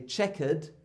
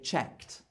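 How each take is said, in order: First: The ending is a separate syllable with a vowel. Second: The ending has no vowel; one syllable. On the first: The speaker calls it wrong. "we don't say checkered" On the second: The speaker calls it right. "we say checked"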